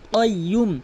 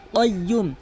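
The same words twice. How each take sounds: Both takes have the same delivery.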